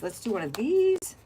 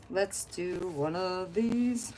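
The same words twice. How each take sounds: First: Said in the usual way. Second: Slow sing-song drawl. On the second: Pretend. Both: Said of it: "repeated line, said differently".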